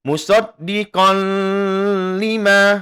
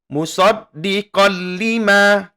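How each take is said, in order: First: A nasal hum is held before the L. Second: No nasal hum; the L is simply doubled. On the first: The speaker calls it wrong. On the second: The speaker calls it right. "tidak didengungkan dan tidak ditahan selama dua harokat"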